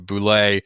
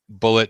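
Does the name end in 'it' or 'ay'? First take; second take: ay; it. First: The name ends with an 'ay' sound. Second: The name ends with an 'it' sound. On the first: "or Boulet" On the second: "depending on how you pronounce it"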